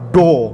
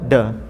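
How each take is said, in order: First: The vowel is a rounded, thickened o. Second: The vowel is a plain open a. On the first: The speaker calls it wrong. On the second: The speaker calls it right. "da macam biasa"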